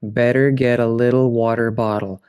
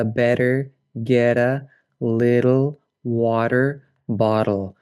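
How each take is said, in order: First: "Better get a little water bottle" with the T's nearly vanishing; barely touch the T's at all; T almost dropped. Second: "better get a little water bottle" with every T as a quick tap; flapped T as light D. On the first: Teacher contrasts a version without the D or T. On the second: Teacher shows the flapped T in a practice phrase. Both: Shown as a demonstration. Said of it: "without the D or T".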